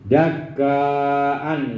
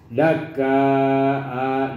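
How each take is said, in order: First: The word ends with an n sound. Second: The word ends with a long vowel. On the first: This is the form as it is written. "itu tulisannya" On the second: This is how it is read when pausing. "dibacanya gitu kan"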